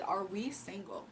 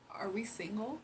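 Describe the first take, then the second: First: "Are we single?" drawn out slowly, falling at the end; pointed repeated question. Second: Said in the usual way. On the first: Retold or imitated. Repeats his question more pointedly.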